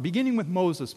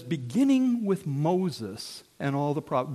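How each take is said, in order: First: Beginning lifted higher and leaned on; stress on Beginning. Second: Said in the usual way. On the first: Shown as a demonstration. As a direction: land hard on the word Beginning. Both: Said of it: "And it says".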